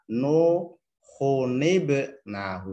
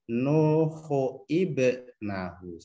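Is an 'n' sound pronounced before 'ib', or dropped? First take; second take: pronounced; dropped. First: An 'n' sound is pronounced before 'ib'. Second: No 'n' sound is heard before 'ib'. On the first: The speaker calls it right. "Nuhunib nahu seperti itu" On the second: The speaker calls it wrong. "Bukan nuhuib nahu"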